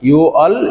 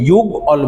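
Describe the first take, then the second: First: No consonant is heard before the second syllable. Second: A g sound is heard before the second syllable. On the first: The speaker calls it right. "বিয়োগটা বিলুপ্ত হয়ে হবে ইউ অল" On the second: The speaker calls it wrong. "এটাকে ইউগ অল বসবো না"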